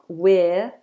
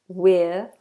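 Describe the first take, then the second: The two takes are said the same way.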